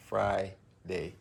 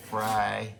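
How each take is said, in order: First: Said in the usual way. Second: Friday punched louder, Fry stretched like fries; pun on fries. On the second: Shown as a demonstration. Making a fries pun at dinner, hits Friday harder. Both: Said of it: "Pun intended".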